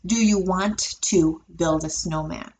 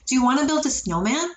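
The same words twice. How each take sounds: First: Slow, with every sound of 'want to' said. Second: Natural pace, with 'want to' reduced to 'wanna'. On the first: "If I wanted to really enunciate and say every sound, want to, I have to slow down my speech" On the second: "in natural paced speech"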